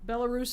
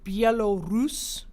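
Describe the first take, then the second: First: The name is said in a casual, simplified way. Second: The name is said in a careful, precise way. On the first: The speaker calls it wrong. "Belarus is the lazy way to say it" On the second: The speaker calls it right. "To say it properly, you would say Belarus"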